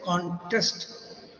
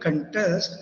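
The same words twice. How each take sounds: First: The stress is on the first syllable. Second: The stress is on the second syllable. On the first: It names a competition people take part in. "it becomes a, uh, a place where everyone is participating" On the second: It means to take part or compete. "you contest, you participate"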